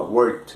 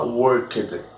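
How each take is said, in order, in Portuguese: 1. A consoante final é suave e sutil. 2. A consoante final é pronunciada com força. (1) "você fala worked" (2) "Você não fala worked"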